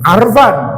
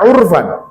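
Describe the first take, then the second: First: The first vowel is an open 'a' sound. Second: The first vowel is a rounded 'u' sound. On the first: It is the form the pattern predicts, but nobody uses it. The speaker calls it wrong. "Maka pantasnya arafa ya'rifu arfan" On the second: It is the form native speakers actually use. The speaker calls it right. "dengan dhammah di atas fa'fi'il, maka dibacanya urfan"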